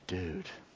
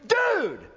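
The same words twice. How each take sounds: First: The word is said with relief. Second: The word is said with excitement. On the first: The speaker is relieved. "used to communicate relief" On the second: The speaker is thrilled. "used in such a way that communicates excitement"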